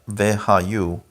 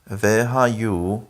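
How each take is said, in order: The two takes are said the same way.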